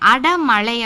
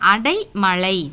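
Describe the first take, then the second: First: The second syllable is a short 'da'. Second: The second syllable is the diphthong 'dai'. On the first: This is the everyday spoken form. The speaker calls it wrong. "பேச்சு வழக்கு" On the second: This is the standard written form. The speaker calls it right. "சரியான எழுத்து வழக்கு"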